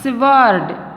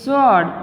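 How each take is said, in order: First: The w sound is pronounced. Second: The w sound is silent. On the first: The speaker calls it wrong. "not sword" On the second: The speaker calls it right. "It's sword. Matlab W is silent here"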